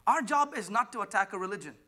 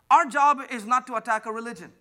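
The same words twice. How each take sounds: First: Said in the usual way. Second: Louder, higher second take; emphatic repeat. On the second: Shown as a demonstration. Pastor repeating his point louder to the congregation. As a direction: hammer the line home. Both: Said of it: "Do you hear me?".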